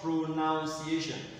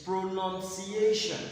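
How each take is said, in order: First: The second syllable sounds like 'noun'. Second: The second syllable sounds like 'nun'. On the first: The speaker calls it wrong. "not pronunciation" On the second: The speaker calls it right. "this one here is pronunciation"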